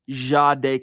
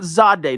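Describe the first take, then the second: First: The name begins with a soft J-like sound. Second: The name begins with a sharp Z sound. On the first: The speaker calls it right. "kind of Jade" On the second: The speaker calls it wrong. "not Zade, not a sharp Z"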